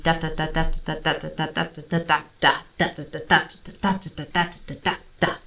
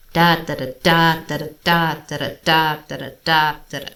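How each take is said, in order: First: Said in the usual way. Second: First da of each group leaned on and stretched; swung triplets. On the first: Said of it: "standard triplets would be". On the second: Shown as a demonstration. Showing the swung rhythm, first note stressed. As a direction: swing it, lean on the first da. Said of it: "emphasis and slight lengthening of the first note".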